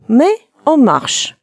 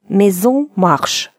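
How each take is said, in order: First: The words are said without an added linking sound. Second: The words are joined with a linking sound. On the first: But we are walking. "вот фраза «но мы идем»" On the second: The house is walking. "Сделаем ненужную связку"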